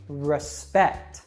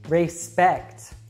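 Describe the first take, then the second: First: The first syllable has a reduced uh vowel. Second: The first syllable has a full, clear vowel. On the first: The speaker calls it right. "the first syllable that is not stressed has that schwa sound" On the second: The speaker calls it wrong. "most learners would probably say these something like"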